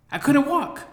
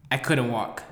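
First: Couldn't walk, said much higher and louder; high squeaky repeat. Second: Said in the usual way. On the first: Shown as a demonstration. Repeating himself to the audience, much higher and squeakier. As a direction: pitch the second "I couldn't walk" way up.

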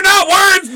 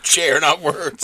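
First: High shouted not words; mock shout of not words. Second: Not words said slow and soft; slow soft echo of not words. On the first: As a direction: yell not words at the dummy. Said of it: "Chair, not words, dummy". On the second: Retold or imitated. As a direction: savor not words slowly. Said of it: "repeated from the quote".

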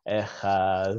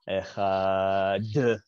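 First: "Echad" with the d softened and drawn out; right Echad. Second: "Echad" with a hard clipped final d; "Echad" ending in a hard stopped d with a little "uh" after it; wrong Echad. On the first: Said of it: "That's the right way of doing it". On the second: Teacher demoing the wrong way: hard d in "Echad". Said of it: "You're not supposed to do that". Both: Shown as a demonstration.

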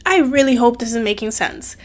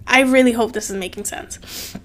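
First: Said in the usual way. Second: Whisper. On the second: Real, not acted. Whispering it again to her viewers. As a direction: breathe it out under her breath. Repeats hope line, then whispers.

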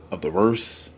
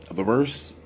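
No difference in how they are said.

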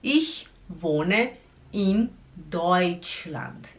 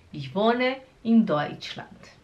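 First: ICH, WOHNE, IN, DEUTSCHLAND, each separated; very slow "Ich wohne in Deutschland" with pauses; slow word-by-word. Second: Said in the usual way. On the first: Shown as a demonstration. Teacher breaking the sentence down for learners, slowly.

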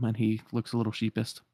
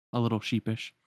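First: "sheepist" said with a t at the end; "sheepist" ending in -pist; mispronounced sheepish. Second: "sheepish" said properly with -pish; "sheepish" ending in -shish sound; corrected sheepish. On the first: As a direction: slip into "sheepist" instead of "sheepish". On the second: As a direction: fix the slip to "sheepish". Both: Real, not acted.

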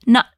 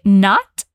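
First: Not with the tongue in T position but no T sound released; not ending in a held, unreleased T. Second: Not with a crisp, audible T at the end; not, T fully pronounced; fully released T. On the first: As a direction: hold the T of not silently, American style. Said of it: "se diz not". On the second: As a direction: pop the T in not clearly. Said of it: "ao invés de dizer not". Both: Shown as a demonstration.

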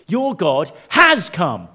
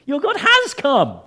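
First: Loud, slow, with HAS set apart; stress on HAS. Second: High, loud cry with HAS held up; exclaimed stress on HAS. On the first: Preacher gives the conclusion, slow emphatic stress on "has". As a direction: lean on "has" and space the words out. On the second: Preacher repeats the point to congregation, exclaiming "has". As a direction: ring out "has" at the top of the voice. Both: Real, not acted.

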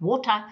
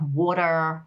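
First: WATER in a South African accent, crisp T; South African WATER, "waw-tah"; South African pronunciation. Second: American WATER, "wah-derr"; Americanized pronunciation. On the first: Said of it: "I might use certain words. I don't talk about water". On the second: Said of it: "you have to Americanize certain things". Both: Shown as a demonstration.

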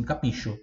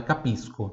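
First: "Capisco" mispronounced ka-PEE-sho, said softly; mistaken SH sound. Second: "capisco" said ka-PEES-ko, with a hard K; no SH sound. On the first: Retold or imitated. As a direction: quote the learner's error, "Capisco" with SH for SC. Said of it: "vi pessoas respondendo assim". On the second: Shown as a demonstration. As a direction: correct it to "capisco", crisp S then K. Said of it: "não tem som de X".

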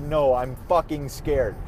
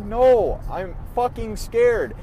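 First: Said in the usual way. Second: A mild echo of a scared sob, higher and louder; retold tearful fear. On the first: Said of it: "I'm pretty dang sure I said". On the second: Telling mom on the phone, a touch tearful and scared. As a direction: let the fear crack through the words. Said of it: "I'm bawling my eyes out to my mom".

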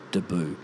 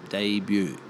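First: Debut said "duh-BOO"; Aussie "duh-BOO" for Debut; Aussie mispronunciation. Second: Debut said "DAY-byoo"; softened pronunciation. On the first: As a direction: trash Debut into "d'boo". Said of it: "the Aussies fucking trash". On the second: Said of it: "It softens it". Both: Shown as a demonstration.

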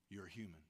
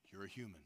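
First: "human" repeated even lower and softer. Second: "human" said low and soft; quiet reassurance to the flock; soft confiding. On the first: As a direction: let it sink in gently. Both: Real, not acted.

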